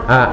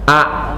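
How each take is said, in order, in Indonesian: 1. Vokalnya sempit dan lemah. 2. Vokalnya terbuka lebar dan kuat. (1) "kalau hanya begini saja A, A itu kurang" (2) "maka ini masuk tiga jari. A begitu"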